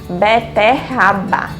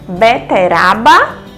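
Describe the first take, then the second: First: The middle R is a strong sound. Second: The middle R is a light tap. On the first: The speaker calls it right. "nós precisamos usar o dígrafo" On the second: The speaker calls it wrong. "Será se nós tirássemos um R, como ficaria? ... não ficaria correto"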